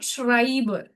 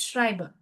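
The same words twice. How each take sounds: First: The R sound is strong and fully pronounced. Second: The R sound is soft and barely pronounced. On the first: The speaker calls it wrong. "it's not Schreiber" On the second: The speaker calls it right. "Schrei is again a subtler R"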